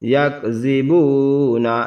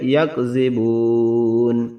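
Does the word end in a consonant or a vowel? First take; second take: vowel; consonant. First: The word ends with a final vowel sound. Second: The word ends on a final consonant. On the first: The reading continues without stopping. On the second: The reader stops at this word.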